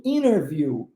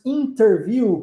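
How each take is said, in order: First: "interview" as "innerview", the T dropped; swallowed T. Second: "interview" with the T fully sounded; clearly pronounced T. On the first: Teacher shows the common spoken form, "interview" with the T swallowed. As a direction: swallow the T in "interview", running N straight into the vowel. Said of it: "como é que se engole o T". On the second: Teacher shows students the full form, "interview" with its T sounded. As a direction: say "interview" with a crisp T after the N. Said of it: "ao invés de pronunciarmos interview". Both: Shown as a demonstration.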